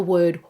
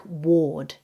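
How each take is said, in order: First: Word said slowly with an "er" vowel. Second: Word said as "ward", with an "or" vowel; mispronounced as ward. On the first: Teacher modelling word for learners, with er vowel. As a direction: say word to rhyme with bird. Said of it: "it is er". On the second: Teacher showing non-native error, word said as ward. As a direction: say ward with the or of fork. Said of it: "sounds more like ward". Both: Shown as a demonstration.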